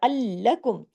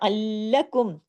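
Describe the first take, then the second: Both takes have the same delivery.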